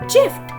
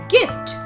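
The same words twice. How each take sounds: First: It begins with a j sound. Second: It begins with a hard g sound. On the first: The speaker calls it wrong. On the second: The speaker calls it right. "those are not followed rules"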